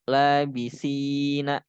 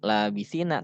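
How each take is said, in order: First: The 'si' vowel is drawn out long. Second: The 'si' vowel is said short. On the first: The speaker calls it right. "maka labisina itu dibaca panjang tuh" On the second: The speaker calls it wrong. "Jangan labisina"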